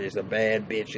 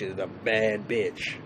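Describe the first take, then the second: First: "bad" lightly leaned on; "bad" said with approval, not as an insult; stress on bad. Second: "bad" drawn out and stressed, words spaced; slow down and savor "bad"; "bad" stretched long and admiring. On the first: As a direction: hit "bad" as praise. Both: Shown as a demonstration. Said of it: "when I call her bitch".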